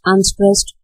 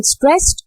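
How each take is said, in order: First: "unstressed" dropped to normal pitch; unlifted, lighter "unstressed"; unstressed beat. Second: "stressed" high and rising; stressed beat. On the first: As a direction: let "unstressed" fall back as the weak beat. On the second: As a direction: lift "stressed" in pitch as the strong beat. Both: Shown as a demonstration. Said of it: "uh, again".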